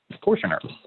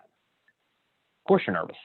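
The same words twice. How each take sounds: First: Said in the usual way. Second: Slow, stretched-out words; slow, soothing drawl; drawn-out reassurance. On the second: Shown as a demonstration. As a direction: let each word linger.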